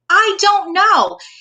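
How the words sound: It is said in an upbeat, excited, eager tone. The speaker looks forward to the unknown with curiosity. The speaker calls it right. "I don't know what's going to happen, but I am so excited"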